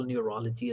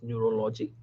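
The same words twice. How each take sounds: First: Said in the usual way. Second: "neurology" as nyoo-ro-LO-jee, softly; mispronounced "neurology". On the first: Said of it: "This is not how we talk in the U S". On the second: Shown as a demonstration. Coach repeats the doctors' error, "neurology" as neuro-LO-jee. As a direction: pronounce "neurology" with round O sounds, neuro-lo-jee. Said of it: "they, they talk like this".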